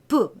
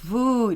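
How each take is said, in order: First: The consonant is a plain voiceless stop. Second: The consonant is a voiced, softened sound. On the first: "비읍은 브" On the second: "순경한 비읍은 브 이렇게 울림 소리"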